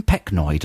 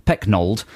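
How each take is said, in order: First: [name] said as Peck-noid; misread surname. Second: [name] said as Peck-nold; corrected surname. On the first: Reader stumbles on singer's name, [name] as Peck-noid. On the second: Reader corrects the singer's name, [name] as Peck-nold. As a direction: say [name] with a long O and the L. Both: Real, not acted. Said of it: "no, sorry".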